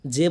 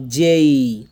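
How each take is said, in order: First: J said wrongly as a short "je"; short "je" for J, no glide; J without glide. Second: J said loud and long as "jey-ee"; J as diphthong. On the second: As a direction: stretch J, gliding into "ee". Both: Shown as a demonstration. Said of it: "জে বলবো না".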